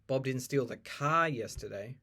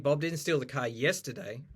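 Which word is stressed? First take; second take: car; yesterday. First: The stress falls on the word car. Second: The stress falls on the word yesterday. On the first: He stole something else. "there you're stressing that it's like maybe he stole a tram" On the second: It happened on another day. "If you put the stress on yesterday"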